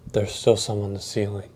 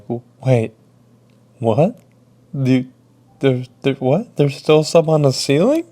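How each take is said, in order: First: Said in the usual way. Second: Incredulous, rising to a high, loud question; stammering disbelief. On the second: Retold or imitated. Worker hears of mess left on ceiling, stammering disbelief. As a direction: stumble over the words, then echo it in shock. Stunned by coworker's news, echoes it.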